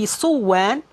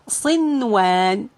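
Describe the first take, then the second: First: The n sound is merged into the w. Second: The n sound is pronounced clearly before w. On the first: The speaker calls it wrong. "changing the word to be صوان, I mean after merging" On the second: The speaker calls it right. "So we keep it as it is"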